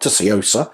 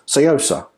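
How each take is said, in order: First: The word begins with a clear t sound. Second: The word begins without any t sound. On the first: The speaker calls it wrong. "apparently you don't say the T, so it's not Tsuyosa" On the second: The speaker calls it right. "it's Seosa"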